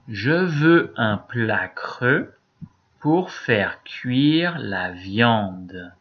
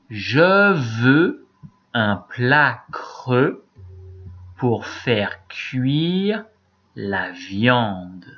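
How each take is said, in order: First: The sentence is read at a faster pace. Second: The sentence is read at a slower pace. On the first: "Je vais le répéter" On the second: "Moi d'abord"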